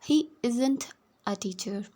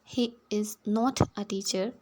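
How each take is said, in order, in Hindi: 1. 'Is not' को एक तेज़ जुड़े शब्द में बोला जाता है। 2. 'Is not' को दो अलग शब्दों में बोला जाता है। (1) "अगर आप इन्हें मिलाकर पढ़ते हैं" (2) "अगर आप इनको अलग अलग बोलते हैं"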